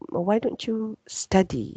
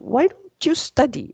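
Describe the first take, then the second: First: It is said in a gentle, coaxing tone. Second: It is said in a firm, forceful tone. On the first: The listener is gently encouraged to study. "that sort of coaxing" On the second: The listener is being pushed to study. "you're actually forcing the person already"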